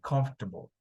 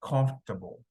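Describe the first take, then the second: No difference in how they are said.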